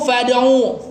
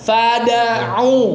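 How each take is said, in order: First: The d sound is dropped with no bounce. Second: The d sound has a clear bounce. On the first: The speaker calls it wrong. "biasanya itu fad'u, fad'u. Jadi iya hilang dalnya, qalqalahnya hilang" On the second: The speaker calls it right. "harusnya gitu kan?"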